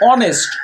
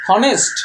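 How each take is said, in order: First: The word begins with a vowel sound. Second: The word begins with an h sound. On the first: The speaker calls it right. "এর উচ্চারণ হচ্ছে অনেস্ট" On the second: The speaker calls it wrong. "এর উচ্চারণটা কি হনেস্ট না"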